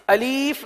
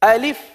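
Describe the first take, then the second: First: The second vowel is drawn out long. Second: The second vowel is kept short. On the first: The speaker calls it wrong. "अलीफ नहीं पढ़ेंगे" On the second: The speaker calls it right. "बल्कि अलिफ"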